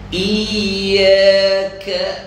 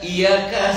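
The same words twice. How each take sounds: First: The y sound is held and doubled. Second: The y sound is short and single. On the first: The speaker calls it right. "ya itu sabdu" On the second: The speaker calls it wrong.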